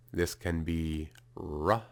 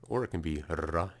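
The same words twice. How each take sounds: First: Said in the usual way. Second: "R" with a trilled, rolled r. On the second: Shown as a demonstration. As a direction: roll the r in "R". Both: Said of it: "if you roll your R".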